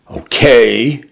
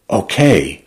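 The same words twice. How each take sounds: First: Tentative OKAY, lifting at the end; overwrought, reluctant okay. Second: Settled OKAY, falling at the end; accepting, resolved okay. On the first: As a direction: let OKAY rise, unresolved and hurt. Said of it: "furious, miserable, delirious". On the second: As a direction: let OKAY drop and settle with meaning. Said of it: "letting it encompass so much more". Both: A narrator's reading.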